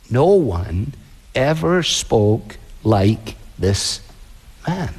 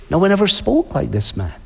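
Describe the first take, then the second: First: Low, slow, drawn-out awe; awed officers. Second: Said in the usual way. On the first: Acted. Officers answering the Pharisees, slow and low in awe. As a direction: stretch it out low, stunned. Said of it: "And they say".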